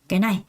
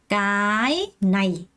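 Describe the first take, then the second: First: The stress is on the second syllable. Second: The stress is on the first syllable. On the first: The speaker calls it right. "앞에 건 살짝 두 번째 강세를 준다고 했어요" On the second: The speaker calls it wrong. "이렇게 읽는 사람 아무도 없어요"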